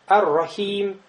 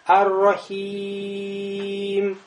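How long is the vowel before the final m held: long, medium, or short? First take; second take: short; long. First: The vowel before the final m is not lengthened. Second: The vowel before the final m is stretched very long. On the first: "Аль-Каср. ... Не тянем" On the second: "Алишба. Тянем много"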